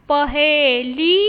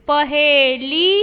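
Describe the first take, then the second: The two takes are said the same way.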